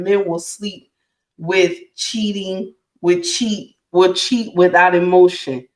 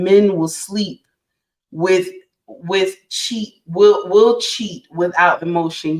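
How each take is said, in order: First: Said in the usual way. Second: Slowed right down, each word of "men will sleep with cheat" laid out deliberately; slow emphatic repeat. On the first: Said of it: "say it now". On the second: Shown as a demonstration. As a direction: repeat it slowly so it sinks in. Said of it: "You right".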